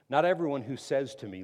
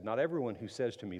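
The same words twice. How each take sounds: First: Loud, weighty scripture line; emphatic reading. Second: Faster, lighter quote; quick recap reading. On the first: Preacher reading verse to the congregation, loud and weighty. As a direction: lean hard on everyone. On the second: Preacher recalling the verse, quick and light. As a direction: rattle it off as a reminder. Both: Shown as a demonstration. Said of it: "The verse I just read".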